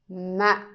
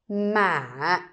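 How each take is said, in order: First: The syllable is cut short. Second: The pitch rises slightly, then falls. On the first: "The dot tells you to make it short" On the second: "going up a little bit and then you need to pull the word down"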